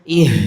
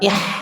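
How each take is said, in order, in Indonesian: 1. Bunyi h-nya lembut, berhembus dari dada. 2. Bunyi h-nya tajam dan serak, dari tenggorokan. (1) "Harus yang dada" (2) "Enggak boleh ih, ih. Nah, enggak boleh pedes"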